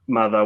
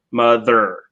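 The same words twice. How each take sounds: First: "mother" ending in an open ah, no R; non-rhotic "mother" with a schwa ending; British R-less ending. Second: "mother" ending in a full R sound; American R ending. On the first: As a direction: say "mother" the British way, final R dropped. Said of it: "in British English, it's more of an". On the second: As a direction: say "mother" the American way, R pronounced at the end. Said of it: "we would say mother with the, with the R sound". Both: Shown as a demonstration.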